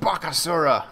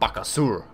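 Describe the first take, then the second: First: The name ends with a final 'uh' vowel. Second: The name ends on the 'r' sound. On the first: The speaker calls it wrong. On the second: The speaker calls it right.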